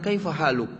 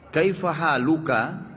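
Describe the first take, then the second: First: The last word ends on a bare consonant. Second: The last word ends with a full vowel ending.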